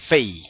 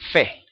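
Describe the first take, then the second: First: The vowel glides into an 'ei' sound. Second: The vowel stays a plain 'e' sound. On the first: "Fei es como lo pronuncian los askenazim" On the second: "Los judíos sefardim dicen Fe"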